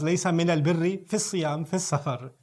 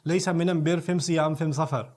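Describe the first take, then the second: First: The article is said as al, with l. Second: The article is said as am, with m.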